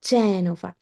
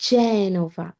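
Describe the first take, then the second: No difference in how they are said.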